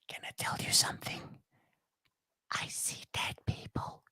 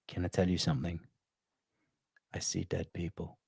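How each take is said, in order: First: The line is whispered. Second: The line is spoken in a normal voice. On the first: The speaker calls it wrong. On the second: The speaker calls it right.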